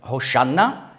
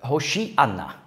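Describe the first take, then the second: First: The word is said with three syllables. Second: The word is said with four syllables. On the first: This is the short form common two thousand years ago. "das ist die Kurzbefehlsform, die vor 2000 Jahren üblich war" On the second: This is the full form of the word. "Jetzt habe ich gesagt, im Prinzip, Hoshi'anna"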